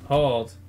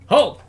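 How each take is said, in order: First: It is said weakly, without conviction. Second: It is shouted forcefully and with conviction.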